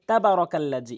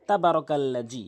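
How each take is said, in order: First: The consonant sounds like 'j', with short 'ba'. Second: The same.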